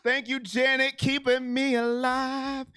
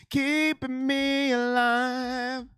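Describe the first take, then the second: First: Slightly stretched, steady delivery. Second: Very slow, elongated words; heavily stretched thanks. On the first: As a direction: thank a donor, easing the pace a little. Donor thanks, said twice, second stretched. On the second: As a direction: drag the phrase right out in gratitude. Repeat of donor thanks, stretched further. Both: Real, not acted.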